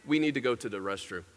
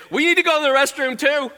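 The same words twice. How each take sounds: First: Low, softly voiced pupil asking permission; meek pupil request. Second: High, loud copycat pupil plea; eager pupil request. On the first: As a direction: ask the teacher quietly, pitched down. First young ladies ask permission. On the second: Acted. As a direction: pipe up urgently, louder and higher. Next pupils copy the first request.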